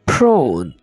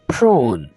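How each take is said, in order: No difference in how they are said.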